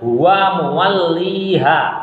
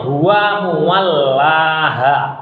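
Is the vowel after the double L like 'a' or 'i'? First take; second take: i; a. First: The vowel after the double L sounds like 'i'. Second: The vowel after the double L sounds like 'a'. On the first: This is the reading chosen by Hafs. "kalau Imam Hafiz memilih membacanya huwa muwalliha" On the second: This is the reading of other transmissions. "riwayat-riwayat yang lain, cara membacanya huwa muwallaha"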